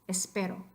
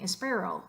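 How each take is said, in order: First: The middle consonant is a quick tongue tap. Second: The middle consonant is an English-style r. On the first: The speaker calls it right. "You just want r" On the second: The speaker calls it wrong. "You definitely don't want to sound gringo like that"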